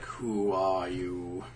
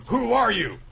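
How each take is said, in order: First: Slow, low and eerie; mock-menacing slow voice; slow, low drawn-out question. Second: High, loud startled question; hammed-up high alarm; shocked gasp. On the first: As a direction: stretch out each word low. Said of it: "He says". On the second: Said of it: "it's like gasps".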